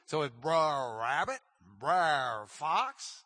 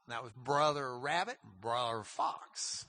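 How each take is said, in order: First: Brer Rabbit, Brer Fox with a short rolled Brer; old Southern Brer. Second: Said in the usual way. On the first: Shown as a demonstration. Teacher showing the class the old dialect Brer. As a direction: say Brer as one clipped syllable, Southern dialect. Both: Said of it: "that's just the way that they said brother".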